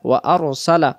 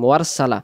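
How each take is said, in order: First: A glottal stop separates the two parts clearly. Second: The glottal stop is dropped, sounds run together. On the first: The speaker calls it right. "এখানে উচ্চারণ হবে ওয়া আরসালা" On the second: The speaker calls it wrong. "এই হামজা অক্ষরটা বাদ চলে যাবে"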